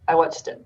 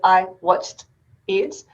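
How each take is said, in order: First: The words run together with the sounds linked. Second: Each word is said separately, without linking. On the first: "That's connected speech" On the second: "So three words"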